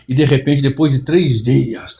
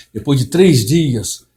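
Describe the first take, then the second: First: Mimicking a preacher's slow, drawn-out drama; theatrical preacher. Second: Slow, puffed-up pulpit drama, falling at the end; mock the inflated preaching voice; theatrical preacher. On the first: Mocking other pastors' staged sermon, slow and drawn out. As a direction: stretch it out like a showy pulpit storyteller. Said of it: "toda aquela, aquela encenação ... entonação na voz". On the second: Imitating famous pastors' inflated voice, slow and solemn. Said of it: "Empola a voz, afina a voz".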